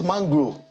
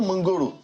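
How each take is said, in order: First: The word is said with two syllables. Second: The word is said with three syllables. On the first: The speaker is trying to sound posh. The speaker calls it right. "It's Mangro" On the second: This is the everyday local way of saying it. The speaker calls it wrong. "it's not Mangoro"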